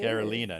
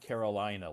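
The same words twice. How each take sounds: First: The name is not said like the state. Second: The name is said like the American state. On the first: The speaker calls it right. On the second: The speaker calls it wrong.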